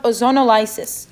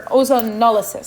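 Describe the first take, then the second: First: Ozonolysis said as "ozono-LIE-sis"; accented pronunciation. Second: Ozonolysis said as "ozo-NOL-uh-sis"; corrected pronunciation. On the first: Teacher naming the reaction, accented pronunciation. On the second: Teacher correcting herself for the class, corrected pronunciation. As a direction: stress the NOL in ozonolysis, short "lysis". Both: Real, not acted.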